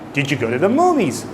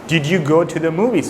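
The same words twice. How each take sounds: First: 'Did you' blends into one sound. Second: 'Did you' is said as two separate words.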